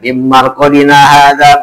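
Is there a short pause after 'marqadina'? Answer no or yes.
no. It runs straight through without any pause.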